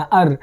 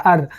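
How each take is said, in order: First: अर clipped and low, no long r; short soft अर, not the English आर. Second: अर with a stretched r; teacher stretching the German R in अर; drawn-out R. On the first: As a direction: say अर briefly and softly. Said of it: "अर पढ़ना". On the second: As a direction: drag the r of अर. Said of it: "आर को खींचते हुए पढ़ना". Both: Shown as a demonstration.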